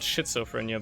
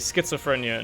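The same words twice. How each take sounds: First: The word begins with an 'sh' sound. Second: The word begins with an 'sk' sound. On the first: This follows the German reading of the spelling. "that's like a sh sound" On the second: This is how British speakers say it. "Why do British people or English people say schizophrenia"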